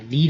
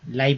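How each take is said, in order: First: The syllable is said with an 'ee' vowel. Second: The syllable is said with an 'eye' vowel. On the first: The speaker calls it wrong. "ली नहीं पढ़ेंगे" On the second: The speaker calls it right. "लाई पढ़ेंगे"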